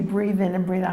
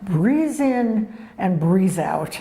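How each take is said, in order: First: It is said in a plain, ordinary accent. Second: It is said with a German accent. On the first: "you're not saying it right" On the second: "he would say with his Germanic accent"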